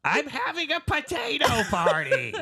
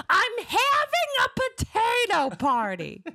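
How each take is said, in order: First: Gilbert Gottfried voice. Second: High, slow squawk through laughter; Gilbert Gottfried voice. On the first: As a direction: screech it high like a comic. Joins the Gottfried impression. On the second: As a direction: echo it high and slow like the comic. Repeats line in Gottfried voice. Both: Acted.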